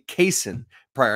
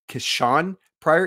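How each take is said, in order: First: The first name sounds like Kaysen. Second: The first name sounds like Kashawn. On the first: The speaker calls it right. "It's actually" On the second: The speaker calls it wrong. "I had been saying"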